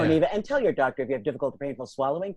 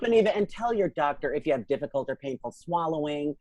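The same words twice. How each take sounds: First: The line is read at a quicker pace. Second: The line is read at a slower pace.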